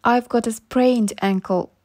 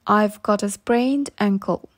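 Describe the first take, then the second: No difference in how they are said.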